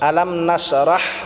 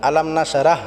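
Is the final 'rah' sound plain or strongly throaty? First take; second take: throaty; plain. First: The final 'rah' is pressed from the throat. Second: The final 'rah' is said plainly, without throat pressure. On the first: The speaker calls it right. "রাহ এটা আমরা গলায় চাপ দিয়ে উচ্চারণ করব।" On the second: The speaker calls it wrong. "বললে হবে না।"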